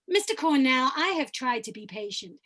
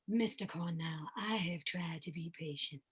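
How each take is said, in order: First: The voice is higher and resonates in the mouth. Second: The voice is low and resonates in the chest. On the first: This is another different character. "I can come up to my oral resonant place" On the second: This is one character. "I can choose to have a character voice down here"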